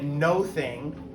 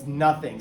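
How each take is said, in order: First: The first vowel sounds like 'oh'. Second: The first vowel sounds like 'uh'. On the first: The speaker calls it wrong. "we don't say it no thing" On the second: The speaker calls it right. "It's nothing"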